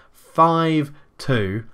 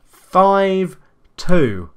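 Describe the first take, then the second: First: Said in the usual way. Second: Loud, higher score call; score shout. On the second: Real, not acted. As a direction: bark the score out. Announcing the new score.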